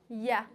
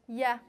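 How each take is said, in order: No difference in how they are said.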